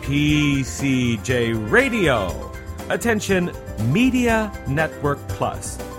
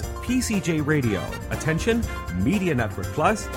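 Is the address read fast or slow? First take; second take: slow; fast. First: The words are read at a slow pace. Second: The words are read at a fast pace. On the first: The speaker calls it right. "I will say it again a little bit slower" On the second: The speaker calls it wrong. "I know I said that a little bit fast"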